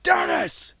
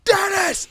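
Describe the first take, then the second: First: High, loud yell of a name across a parking lot; father's angry shout. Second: Very high, loud angry yell of the name; father's furious shout. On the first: Father calling his son back, angry shout. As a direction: bellow the name like a furious dad. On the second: Father yelling at son who keeps walking, furious shout. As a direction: roar the name like a furious dad. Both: Retold or imitated. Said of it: "he's pissed".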